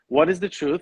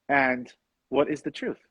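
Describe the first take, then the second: First: It is said as a statement. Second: It is said as a question.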